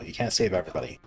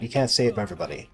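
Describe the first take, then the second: First: Quieter and lower, like a personal motto; soft, resigned motto read; motto said softer. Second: Said in the usual way. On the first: Shown as a demonstration. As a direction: drop the voice and state your motto. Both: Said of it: "That's my motto".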